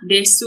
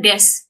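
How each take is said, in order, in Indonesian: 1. Kata ini berakhir dengan vokal u yang dibunyikan. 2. Kata ini berakhir pada huruf s tanpa vokal. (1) "Ini desu juga banyak yang salah" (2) "pengucapannya hanyalah des"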